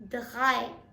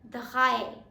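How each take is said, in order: First: The R is a German-style R sound. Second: The same.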